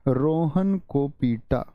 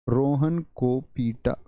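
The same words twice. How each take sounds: The two takes are said the same way.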